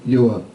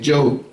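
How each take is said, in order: First: The name begins with a Y sound. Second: The name begins with a J sound. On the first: This is the name as written in Hebrew. "This is his name" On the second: This is how other people commonly say it. "But they say"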